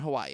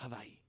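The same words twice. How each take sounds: First: It is said with a plain American pronunciation. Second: It is said with a local Hawaiian pronunciation. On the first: A visitor names the island. The speaker calls it wrong. "I'm on Hawaii" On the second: A local corrects the visitor. The speaker calls it right. "They'll go, "Hawaii." ... correct you"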